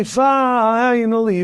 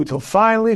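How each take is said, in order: First: Finally stretched slowly, held long; slow the word finally right down to build suspense; drawn-out finally. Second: Said in the usual way. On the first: Shown as a demonstration. Building to the story's punchline, finally said slowly and drawn out.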